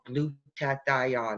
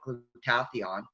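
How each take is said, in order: First: The word is said with an Italian accent. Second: The word is said without an Italian accent. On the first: The speaker calls it right. "with his Italian accent" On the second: The speaker calls it wrong. "I couldn't even say it. I called it"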